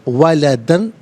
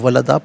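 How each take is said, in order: First: The word ends with an N sound. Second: The word ends with a long A sound. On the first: The recitation continues without stopping. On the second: The recitation stops here.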